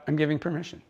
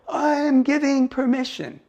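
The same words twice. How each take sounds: First: It is said calmly, in a neutral way. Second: It is said forcefully, with push.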